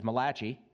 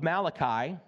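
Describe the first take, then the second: First: "Malachi" said as ma-LAH-chee; jokingly Italianized "Malachi", with a "chee" ending; joke Italian pronunciation. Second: Said in the usual way. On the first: Shown as a demonstration. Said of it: "Just a free insult for my Italian". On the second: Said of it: "known to some of your Italian friends as".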